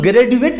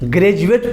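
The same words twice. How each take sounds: First: The D is said as a plain d sound. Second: The D is said as a j sound. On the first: The speaker calls it wrong. "ग्रेजुएट नहीं पढ़ सकते" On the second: The speaker calls it right. "ग्रेजुएट पढ़ते हैं"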